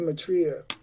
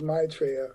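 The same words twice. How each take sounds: First: The name is said the American way. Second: The name is said the European way, stressing MAI.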